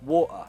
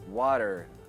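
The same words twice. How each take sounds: First: The T is a stop in the throat. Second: The T sounds like a soft D. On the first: It can sound uneducated. "Glottal tea" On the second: It sounds American. "Americans would pronounce it as a D"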